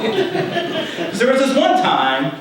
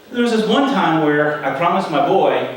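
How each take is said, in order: First: Real laugh, high and slow through the words. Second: Said in the usual way. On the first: Real, not acted. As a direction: chuckle your way into the memory. Laughs as the anecdote starts.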